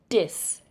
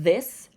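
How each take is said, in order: First: The word begins with a d sound. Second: The word begins with a th sound.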